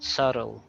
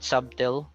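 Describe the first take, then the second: First: No B sound is pronounced in the middle. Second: A B sound is pronounced in the middle. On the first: The speaker calls it right. "silent B" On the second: The speaker calls it wrong. "It's not subtle"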